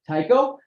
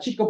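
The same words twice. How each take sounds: First: The name is said with an English pronunciation. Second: The name is said with a Danish pronunciation.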